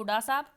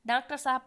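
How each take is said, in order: First: डा साहब as "daa-saab"; shortened form. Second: Said in the usual way. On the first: Shown as a demonstration. Teacher contrasting forms, डा साहब in shortened speech. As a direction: swallow the middle syllables into डा साहब. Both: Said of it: "छोटा कर देना".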